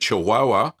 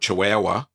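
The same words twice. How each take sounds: First: It is said with a Spanish-style pronunciation. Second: It is said with an Australian pronunciation.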